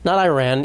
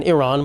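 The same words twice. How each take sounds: First: Iran said "eye-RAN", with a long i; "Iran" as eye-ran, rhyming with can; anglicized wrong pronunciation. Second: Iran said "ih-RON", short first vowel; everyday correct pronunciation. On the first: Comic showing how not to say it, anglicized pronunciation. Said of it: "that's what you should say it". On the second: Comic showing how you should say it, everyday correct pronunciation. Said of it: "Iran is the way". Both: Shown as a demonstration.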